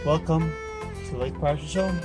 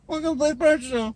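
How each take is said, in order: First: It rises at the end like a question. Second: It falls at the end like a statement.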